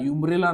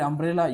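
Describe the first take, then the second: First: The word begins with a y sound. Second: The word begins with a plain vowel sound. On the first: The speaker calls it wrong. "ಯುಂಬ್ರೇಲಾ ಅನ್ನೋಂಗಿಲ್ಲ" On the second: The speaker calls it right. "ಅಂಬ್ರೇಲಾ ಅಂತೀರಿ"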